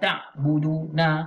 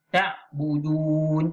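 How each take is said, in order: First: The word ends with an extra vowel after n. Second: The word ends on a plain n sound. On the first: The speaker calls it wrong. "Jangan baca ta'buduna. Ha, itu salah" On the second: The speaker calls it right. "jadi ta'budun"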